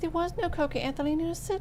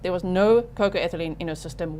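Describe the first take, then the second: First: It is said in a whiny, complaining tone. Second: It is said in a firm, confident tone. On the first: The lawyer seems upset and out of control. The speaker calls it wrong. "That tone, I wish would stop. ... It comes across a little tantrumy" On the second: The lawyer seems calm and in control. The speaker calls it right. "Just say it with some authority"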